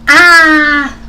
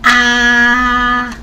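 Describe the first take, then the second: First: The pitch falls sharply from high to low. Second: The pitch stays high and level. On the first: "this is a straight falling tone" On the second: "This is the first tone"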